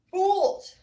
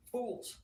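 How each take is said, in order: First: Very high, loud holler; explosive high shout on FOOLS. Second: Short high exclamation on FOOLS; exclaimed. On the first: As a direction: belt FOOLS out at the top. Repeats the word, now shouted. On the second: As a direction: lift FOOLS up high without shouting. Repeats the word, escalating. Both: Real, not acted.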